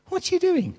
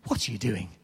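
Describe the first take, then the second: First: Much higher, incredulous cry; yelling at the Bible story in exasperation; exasperated at the Bible. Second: Said in the usual way. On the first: Retold or imitated. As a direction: throw up your hands in disbelief. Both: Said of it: "I do shout at my Bible".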